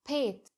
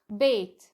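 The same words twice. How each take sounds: First: The word begins with a breathy p sound. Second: The word begins with a voiced b sound. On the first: "هل حسيت بالفرق بين بيت وبيت؟" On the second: "انت كده زي الفل تمام كلمة صحيحة"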